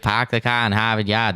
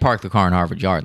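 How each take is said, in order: First: It has an exaggerated, put-on Boston accent. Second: It has a natural, everyday Boston accent. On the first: Outsiders ask for this to mock the accent. The speaker calls it wrong. "That's not how I talk though" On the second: This is how locals really talk. The speaker calls it right. "that's how we normally say it"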